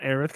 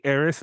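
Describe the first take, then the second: First: "Aerith" ending in a soft th sound. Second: "Aerith" ending in a plain s sound; said as Aeris. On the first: Fan citing the name he avoids, "Aerith" ending in th. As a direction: pronounce "Aerith" as AIR-ith. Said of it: "I always say Aerith". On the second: Fan explaining the original name, "Aerith" ending in s. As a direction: pronounce "Aerith" as AIR-iss. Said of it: "not Aerith, 'cause Aerith". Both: Shown as a demonstration.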